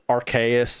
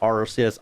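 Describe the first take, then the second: First: The name starts with a hard "ark" sound. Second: The name starts with a soft "arse" sound. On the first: The speaker calls it right. "we call it Arceus ... you get an ARC phone" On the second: The speaker calls it wrong. "It is not Arceus"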